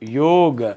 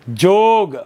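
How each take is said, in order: First: The word begins with a y sound. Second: The word begins with a j sound.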